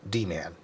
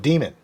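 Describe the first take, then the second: First: The nickname is said slowly, as two clear parts. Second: The nickname is said fast, blurred into one word.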